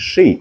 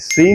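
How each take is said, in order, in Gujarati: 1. આ શબ્દ 'sh' અવાજથી શરૂ થાય છે. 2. આ શબ્દ સાદા 's' અવાજથી શરૂ થાય છે. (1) "આ છે શેમ, શૂઝ અને શી" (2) "સી નથી કહેવાનું"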